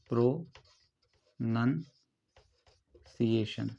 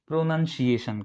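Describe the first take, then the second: First: pronunciation very slowly in separated chunks, long pauses between; syllable by syllable. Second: Said in the usual way. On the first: Shown as a demonstration. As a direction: break pronunciation up as if dictating. Teacher breaks the word into parts.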